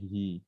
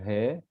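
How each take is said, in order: First: The syllable ends in an 'i' vowel. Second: The syllable ends in an 'e' vowel. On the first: The speaker calls it right. "tapi hi" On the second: The speaker calls it wrong. "bukan he"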